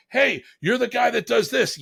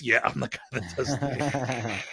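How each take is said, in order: First: Much higher, thrilled realization; excited recognition. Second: Slow, dry confirmation; his own voice echoing the fan, slow and dry; deadpan reply. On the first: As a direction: call it out like you just spotted someone famous. Driver suddenly recognizes him. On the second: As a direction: answer flatly, unimpressed with yourself. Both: Retold or imitated.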